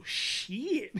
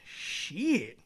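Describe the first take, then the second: First: High, stretched "sheee-it"; higher, long falling toddler echo; baby copycat. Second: Stretched, falling "sheee-it"; slow teasing drag on the word; drawn-out cuss. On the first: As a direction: mimic a toddler echoing the word back. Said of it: "She look at me, she go". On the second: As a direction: say the word long, out of the blue. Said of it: "I just say it out of the blue. I be like". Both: Retold or imitated.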